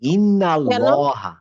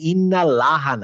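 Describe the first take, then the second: First: The l in Allah is full and heavy. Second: The l in Allah is thin and light. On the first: The speaker calls it right. "ইন্নাতে কি আছে, ফাথা আছে না" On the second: The speaker calls it wrong. "তখন ইন্নাল্লাহা না"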